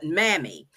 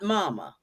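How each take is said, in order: First: The name ends in an 'ee' vowel. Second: The name ends in an 'ah' vowel. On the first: The speaker calls it right. "actually pronounced as Mammy" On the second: The speaker calls it wrong. "not Mama"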